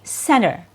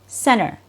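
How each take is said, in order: First: The T after the N is dropped. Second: The same.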